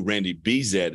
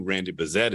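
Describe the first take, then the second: First: Bezet said BEE-zet, long first vowel; first syllable of Bezet a clear BEE; familiar pronunciation. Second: Bezet said buh-ZET, short first vowel; first syllable of Bezet reduced to buh; unfamiliar pronunciation. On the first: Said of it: "I don't know who Randy Bezet is". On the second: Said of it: "I know who Randy Bezet is". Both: Shown as a demonstration.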